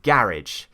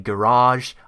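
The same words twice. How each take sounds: First: It is said with a British accent. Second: It is said with an American accent. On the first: "I say garage" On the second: "they say garage"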